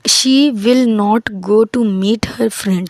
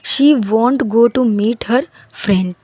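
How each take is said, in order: First: Will not is said fully as two words. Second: Will not is contracted into one syllable.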